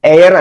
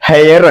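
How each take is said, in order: First: The word begins with a vowel, no h. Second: The word begins with an audible h sound. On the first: The speaker calls it right. "heir എന്നാണ് പറയാ" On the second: The speaker calls it wrong. "hair അല്ല"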